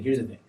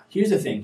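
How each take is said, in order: First: Lower, softer repeat of "Here's the thing"; quieter repeat. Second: Said in the usual way. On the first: Real, not acted. Host quietly resets his answer on balance. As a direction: drop "Here's the thing" down low and soft.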